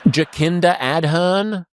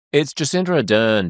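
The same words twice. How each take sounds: First: "Jacinda Ardern" drawn out slowly and higher, echoing the guest's wrong version; slow, incredulous echo of "Jacinda Ardern"; mocking his pronunciation. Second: "Jacinda Ardern" said briskly, with the local vowels; quick, matter-of-fact correction of "Jacinda Ardern"; correct pronunciation. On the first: Mocking the host's take on the prime minister's name, slow and high. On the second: Shown as a demonstration. Correcting the host on the prime minister's name, brisk.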